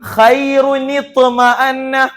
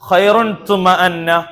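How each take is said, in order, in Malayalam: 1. ചേർത്ത i സ്വരാക്ഷരം രണ്ട് വാക്കുകളെ ബന്ധിപ്പിക്കുന്നു. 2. ആദ്യ വാക്ക് സ്വരാക്ഷരമില്ലാതെ n ൽ അവസാനിക്കുന്നു. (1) "എന്നാൽ എന്താണ് അവിടെ ശരിക്കും പാരായണം ചെയ്യേണ്ടത്?" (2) "ഖുർആനിൽ കാണുന്ന എന്താണ്?"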